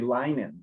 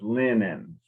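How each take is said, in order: First: The first vowel is long, as in 'line'. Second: The first vowel is short, as in 'lint'. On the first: The speaker calls it wrong. "according to the rule it should be linen, but it isn't" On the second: The speaker calls it right. "It's pronounced like there's two N's"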